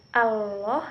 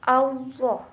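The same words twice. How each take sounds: First: "Allah" said with a thin, light "a" lam, the wrong way. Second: "Allah" with a rounded, thick "au", like "Auloh"; the right, thickened way to say "Allah"; heavy lam. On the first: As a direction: say "Allah" thin and unrounded as the mistake. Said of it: "Bukan Allah". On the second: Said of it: "tapi Allah". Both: Shown as a demonstration.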